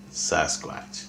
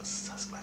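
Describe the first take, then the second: First: Said in the usual way. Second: Savoured whisper of "Sasquatch". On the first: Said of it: "I don't like the word Bigfoot". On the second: Real, not acted. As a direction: breathe "Sasquatch" lovingly with no voice. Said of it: "I love that".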